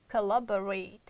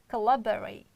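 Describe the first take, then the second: First: The unstressed vowels are reduced to schwa. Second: The same.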